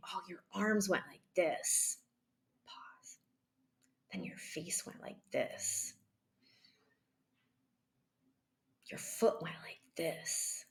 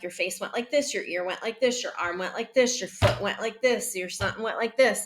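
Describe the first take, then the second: First: Hushed, nearly whispered, with long pauses; slow and calm. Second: Quick, lilting run of observations; rapid-fire listing. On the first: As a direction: describe gently, breathing between each observation. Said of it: "keep going slowly and breathe and be calm". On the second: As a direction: rattle them off without pausing. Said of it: "this isn't like". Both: Shown as a demonstration.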